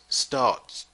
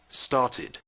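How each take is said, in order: First: The ending is a bare sound, no extra syllable. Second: The ending is said as a separate syllable. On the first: The speaker calls it wrong. "It is not possible to pronounce" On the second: The speaker calls it right. "So the ed must be pronounced started"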